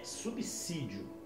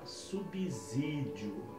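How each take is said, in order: First: The middle consonant sounds like an S. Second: The middle consonant sounds like a Z. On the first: The speaker calls it right. "com som de S e não com som de Z" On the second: The speaker calls it wrong. "Essa palavra está errada"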